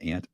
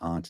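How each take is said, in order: First: It is said with a standard American vowel. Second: It is said with a Northeastern US vowel.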